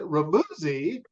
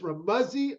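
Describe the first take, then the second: First: The ending does not rhyme with fuzzy. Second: The ending rhymes with fuzzy. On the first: This is how most people misread the name. The speaker calls it wrong. "Most people look at it and, and pronounce it Ramuzzi" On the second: This is how the name is really said. The speaker calls it right. "but it's Ramuzzi like fuzzy"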